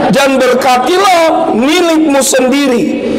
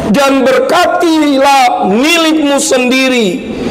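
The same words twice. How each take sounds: The two takes are said the same way.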